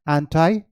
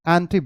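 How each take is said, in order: First: The word ends with an 'eye' sound. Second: The word ends with an 'ee' sound. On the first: This is the American pronunciation. "एंटाई American है" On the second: This is the British pronunciation. "एंटी British है"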